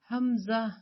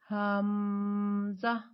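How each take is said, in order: First: The m sound is kept short. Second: The m sound is held long. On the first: The speaker calls it right. "हमजा को बगैर लंबा किए हमने पढ़ना है" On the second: The speaker calls it wrong. "मीम में आवाज को लंबा ना करें, यानी कि हमजा ना पढ़े"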